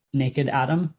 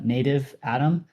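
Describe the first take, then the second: First: Slip of the tongue. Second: Said in the usual way. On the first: Real, not acted. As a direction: say "naked Atom" by mistake. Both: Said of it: "uh, native Atom".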